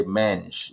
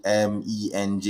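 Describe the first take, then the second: First: Menj said as one syllable; initials as a word. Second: M E N J said letter by letter; name each letter, em, ee, en, jay; spelled-out initials. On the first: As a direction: run the letters together into one word, Menj. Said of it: "You don't say Menj". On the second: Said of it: "how does one pronounce my initials". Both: Shown as a demonstration.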